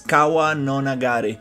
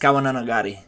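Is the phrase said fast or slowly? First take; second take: slowly; fast. First: The phrase is said slowly and carefully. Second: The phrase is said very quickly. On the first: "it takes me forever to pronounce it" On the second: "like super quick"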